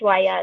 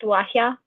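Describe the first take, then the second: First: It is said without any h sound. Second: It is said with an added h sound. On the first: The speaker calls it wrong. "it's not pronounced Waya" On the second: The speaker calls it right. "It's pronounced Wahya. ... that H sound"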